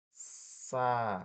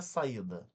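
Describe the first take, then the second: First: "Sa-i-da" in three drawn-out, separate syllables. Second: Said in the usual way. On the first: Shown as a demonstration. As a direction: split Sa-i-da slowly, the I standing alone. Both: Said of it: "o I ficou sozinho".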